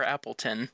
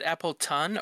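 First: "Appleton" ending in a weak "tn"; reduced last vowel. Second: "Appleton" ending in a clear "tun"; full last vowel. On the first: Offering friend the other option, "Appleton" with weak "tin". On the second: Asking friend how to say the name, "Appleton" with full "tun". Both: Shown as a demonstration. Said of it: "Is it Appleton or Appleton".

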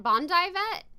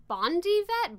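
First: "Bondi" ending in a "dye" sound; "Bondi" rhyming its last syllable with "eye"; alternative pronunciation. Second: "Bondi" ending in a "dee" sound; "Bondi" rhyming its last syllable with "see"; alternative pronunciation. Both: Shown as a demonstration. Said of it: "I think it's called".

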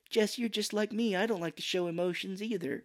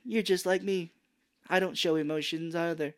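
First: Higher, lightly mocking line reading; softened, pitched-up bad acting; terrible movie line. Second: Higher, lightly mocking delivery; pitched-up, awkward line reading; worst-way bonding line. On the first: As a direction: imitate a wooden actress gently. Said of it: "has a terrible line, too". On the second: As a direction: imitate bad acting with a touch of amusement. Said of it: "In the worst way".

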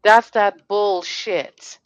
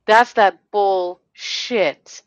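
First: Each word spelled out slowly and hard; slow, weighty disgust; slow emphatic anger. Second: Even slower and louder, fuming; building real anger; slower, louder, angrier repeat. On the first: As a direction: lay it down word by word, fed up. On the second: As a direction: hammer it home harder the second time. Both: Real, not acted. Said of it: "And now I'm getting mad".

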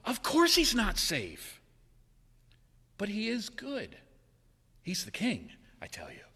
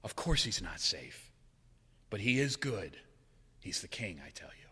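First: Put-on an old church lady setting them straight; Mrs Beaver. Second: Softer, lower, holding back tears; preacher repeating the line he loves, softly; moved. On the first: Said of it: "Missus Beaver replied". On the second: Real, not acted. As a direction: say it gently, close to tears. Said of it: "that line still puts tears behind my eyes".

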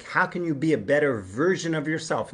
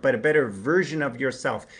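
First: Said in the usual way. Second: "better" leaned on, set against "different"; weight falls on "better", the rest easy; stress on better. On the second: Shown as a demonstration. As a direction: hit the word "better" in "a better version of yourself". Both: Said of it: "Not somebody different".

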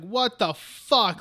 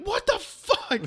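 First: Slow, measured mock disbelief; appalled reaction. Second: Very high mock shriek; horrified outburst. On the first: Everyone reacting to the sacrifice, slow appalled disbelief. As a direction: draw out each word in disbelief. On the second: Two visitors reacting to the sacrifice, high-pitched horrified outburst. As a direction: squeal it high in exaggerated outrage.

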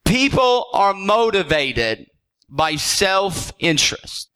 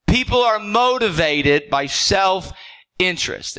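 First: Slow, weighty statement with a pause before self-interest; slow emphatic. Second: Said in the usual way. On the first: Shown as a demonstration. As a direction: lay it down slowly, word by word.

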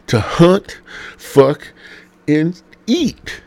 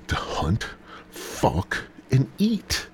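First: High, loud, drawn-out pulpit proclamation; hammed-up sermon, louder and higher; preached. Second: Quiet aside; muttered. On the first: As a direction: boom each word out like gospel. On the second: Acted. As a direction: drop the rule down to a near whisper. Same rule, muttered quietly.

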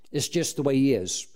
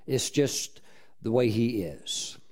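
First: Said in the usual way. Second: Slower and softer, lower, letting it land; slow soft repeat. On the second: Shown as a demonstration. Preacher to congregation, slow soft emphasis on God's ways. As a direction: repeat it slowly, dropping the voice.

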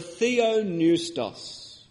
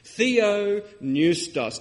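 First: Theopneustos said slowly, theo-pneu-stos; Greek word said out. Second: Theopneustos drawn out very slowly, each syllable clear; very slow Greek word. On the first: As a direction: spell out theopneustos syllable by syllable. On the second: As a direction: stretch Theopneustos out for the congregation. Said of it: "It's the word theopneustos". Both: Shown as a demonstration.

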